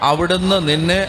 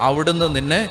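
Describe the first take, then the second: The two takes are said the same way.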